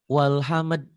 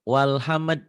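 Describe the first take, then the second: No difference in how they are said.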